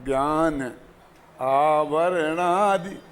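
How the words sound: There is a pause after 'gyaan'.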